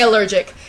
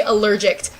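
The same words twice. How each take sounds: First: Said in the usual way. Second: Allergic with an added T at the end; mispronounced allergic. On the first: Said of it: "I can't say allergic". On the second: Shown as a demonstration. Explaining a slip to viewers, allergic said as allergict. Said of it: "I keep on wanting to say allergic".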